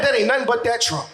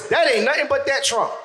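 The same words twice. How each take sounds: First: Mock resigned blame. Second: Put-on old folks saying. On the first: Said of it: "Oh, damn it". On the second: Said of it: "Now it's".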